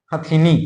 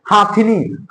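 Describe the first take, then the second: First: हथिनी short and low, first vowel a brief अ; correct pronunciation. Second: हाथिनी with a long आ in हा; wrong pronunciation. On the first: Teacher repeating the right form, correct pronunciation. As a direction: say हथिनी quickly with ह, not हा. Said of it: "हथिनी होता है". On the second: Teacher asking what is written here, wrong pronunciation. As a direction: say हाथिनी with the first vowel held long. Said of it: "हाथिनी नहीं होता भैया". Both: Shown as a demonstration.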